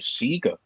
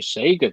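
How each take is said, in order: First: Sega is pronounced the Australian way. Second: Sega is pronounced the usual American way. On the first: "in New Zealand and Australia, they say Sega" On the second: "they don't say Sega"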